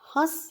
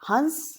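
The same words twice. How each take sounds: First: The vowel itself is nasalized, without full n. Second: The vowel is followed by a full n sound. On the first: It is the verb meaning to laugh. "एक क्रिया शब्द है" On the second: It names a bird. "एक पक्षी है"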